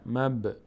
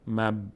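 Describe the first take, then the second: First: The b has a slight bouncing echo. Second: The b stops flat with no echo. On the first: The speaker calls it right. "در هنگام ساکن بودن مقداری میلرزه" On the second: The speaker calls it wrong. "مب نمیگیم"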